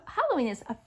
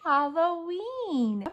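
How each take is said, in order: First: Said in the usual way. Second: Slow loud "Halloween" for the class to echo; slow, drawn-out Halloween. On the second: Shown as a demonstration. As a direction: say "Halloween" slowly and loudly, syllable by syllable. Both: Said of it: "Can you say Halloween?".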